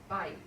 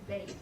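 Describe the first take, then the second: First: The vowel sounds like 'eye'. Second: The vowel sounds like 'ay'. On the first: The word stands on its own. "house is bite" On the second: The word is bound to a following noun. "when it's in construct, it reduces to bait"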